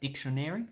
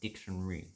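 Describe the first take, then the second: First: All four syllables are pronounced in full. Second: The A is dropped, making it shorter. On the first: The speaker calls it wrong. "We don't usually say dictionary" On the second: The speaker calls it right. "We say dictionary"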